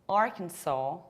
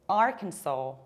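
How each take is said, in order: The two takes are said the same way.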